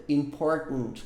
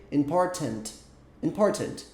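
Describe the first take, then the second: First: "Important" with a glottal stop where the T is; "Important" with a throat-stopped T and no released T. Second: "Important" with a crisp, fully released T; "Important" with a strong T; British T. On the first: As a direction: swallow the T in "Important" at the back of the throat. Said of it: "Como se fosse um golpe de glote". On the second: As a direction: say "Important" the British way, T clearly sounded. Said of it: "você soa até um pouco britânico falando assim". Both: Shown as a demonstration.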